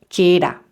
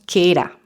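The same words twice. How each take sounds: The two takes are said the same way.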